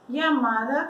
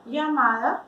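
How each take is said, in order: First: The first sound is like an English y. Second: The same.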